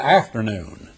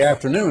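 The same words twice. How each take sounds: First: "afternoon" stressed on AF instead of NOON; Texan-style AFternoon, front of the word stressed; misplaced word stress. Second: Said in the usual way. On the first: Shown as a demonstration. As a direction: lean on the first syllable, AFternoon. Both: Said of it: "He's got the accent on the wrong part of the word".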